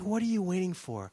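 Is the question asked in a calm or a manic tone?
calm. The question is asked calmly and peacefully. The asker is relaxed and patient. "It's not like this calm, peaceful"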